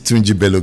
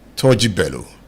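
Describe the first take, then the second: First: The first name is said as Tunji. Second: The first name is said as Toji. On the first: The speaker calls it wrong. "not Tunji" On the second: The speaker calls it right. "Toji, not Tunji"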